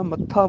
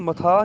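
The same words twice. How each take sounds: First: ਮੱਥਾ with a doubled ਤ and aspirated ਥ; ਮੱਥਾ with the doubled consonant; correct pronunciation. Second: Said in the usual way. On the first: Shown as a demonstration. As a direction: hold the ਤ before the ਥ in ਮੱਥਾ. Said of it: "ਮੱਥਾ ਬੋਲਣਾ ਹੈ". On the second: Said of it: "ਇਹਨੂੰ ਮਥਾ ਨਹੀਂ ਬੋਲਣਾ".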